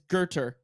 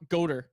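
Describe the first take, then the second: First: The first syllable sounds like 'ger'. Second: The first syllable sounds like 'go'. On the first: The speaker calls it right. "It's Gerter" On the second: The speaker calls it wrong. "It's not Goater"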